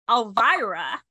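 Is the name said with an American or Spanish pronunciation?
American. The name is said with an American pronunciation. "Americans pronounce it Elvira"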